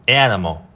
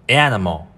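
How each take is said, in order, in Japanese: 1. 最初の母音が開いて、語末が暗い音で言っています。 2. 最初の母音が開いて、語末が暗い音で言っています。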